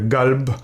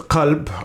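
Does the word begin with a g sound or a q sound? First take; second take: g sound; q sound. First: The word begins with a hard g sound. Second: The word begins with a deep q sound. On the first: This is the common Moroccan regional form. "pronounced as g" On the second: This is the standard Arabic form. "actually is قلب um, in Fusha"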